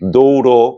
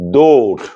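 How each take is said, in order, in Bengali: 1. শব্দটি শেষে একটি যোগ করা 'o' স্বরধ্বনি দিয়ে শেষ হয়। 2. শব্দটি ব্যঞ্জনধ্বনিতে শেষ হয়, শেষে কোনো স্বরধ্বনি নেই। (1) "এমন হবে না" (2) "এগুলো কিন্তু ব্যতিক্রম"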